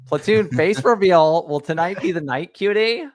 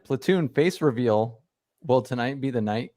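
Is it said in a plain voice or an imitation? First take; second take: imitation; plain. First: It is said imitating the sender's manner. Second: It is read in the speaker's plain voice.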